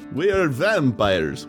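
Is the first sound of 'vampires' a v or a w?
v. Vampires starts with a normal v sound. The speaker calls it wrong.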